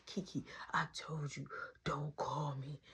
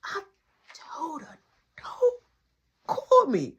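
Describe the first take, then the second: First: Soft, hushed scolding; hushed retold telling-off; secretive whisper. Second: Halting exasperated complaint. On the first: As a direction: whisper it into the phone so nobody hears. Secret phone call, nana nearby. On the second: Retold or imitated. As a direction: spell it out in frustration, pausing between words. Exasperated at risky missed call.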